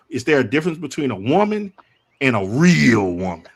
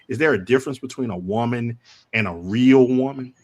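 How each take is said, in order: First: The question is said with marked emphasis on 'real'. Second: The question is said plainly, without marked emphasis. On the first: The speaker calls it right. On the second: The speaker calls it wrong.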